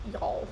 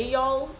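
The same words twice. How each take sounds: First: Soft Southern y'all; Y'all drawled softly in a Southern accent; Y'all slipping out in a Southern accent; Southern slip. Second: Said in the usual way. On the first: Shown as a demonstration. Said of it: "a few words come out". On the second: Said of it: "I don't say".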